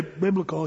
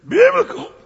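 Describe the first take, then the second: First: Said in the usual way. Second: BIBLICAL cried out high and loud; high, loud imitated pulpit cry on "Biblical"; fired-up preacher. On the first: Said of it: "he didn't say biblical". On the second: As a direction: belt "Biblical" like a gospel preacher. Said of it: "he didn't say biblical. He said".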